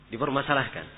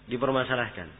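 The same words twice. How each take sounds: The two takes are said the same way.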